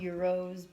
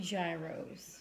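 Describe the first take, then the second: First: The word begins with a 'y' sound. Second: The word begins with a 'j' sound. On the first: This is the proper way to say it. The speaker calls it right. "they're supposed to be called euros" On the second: This is how people from New York say it. The speaker calls it wrong. "we say gyros"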